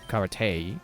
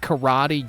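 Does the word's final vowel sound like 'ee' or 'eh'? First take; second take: eh; ee. First: The final vowel is a short 'eh' sound. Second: The final vowel is a long 'ee' sound. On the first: It follows the original Japanese pronunciation. "E is always eh" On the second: It follows the common English pronunciation. "you doofus"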